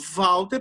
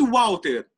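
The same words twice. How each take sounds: First: The name begins with a v sound. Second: The name begins with a w sound. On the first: The letter acts as a consonant. "parece que eu tô falando V" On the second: The letter acts as a vowel. "o Walter tem som de U"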